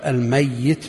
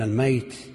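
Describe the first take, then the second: First: The middle y sound is doubled and held longer. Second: The middle y sound is short, not doubled. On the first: Someone who will die. "بخلاف الميت بالتشديد الذي سيموت" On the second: Someone who has already died. "والميت بالتخفيف من مات بالفعل"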